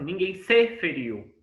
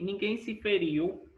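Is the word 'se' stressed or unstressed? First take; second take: stressed; unstressed. First: The word 'se' is stressed and prominent. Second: The word 'se' is weak and low. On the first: The speaker calls it wrong. "não é uma coisa como se eu falasse assim" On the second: The speaker calls it right. "acentuação tônica fraca"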